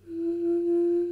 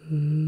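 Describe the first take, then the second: First: "Mm" hummed high and loud; a high steady closed-mouth "Mm" hum. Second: "Mm" hummed lower and loud; a low short closed-mouth "Mm" hum. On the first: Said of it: "Here's the first humming noise". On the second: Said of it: "Here's the second humming noise". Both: Shown as a demonstration.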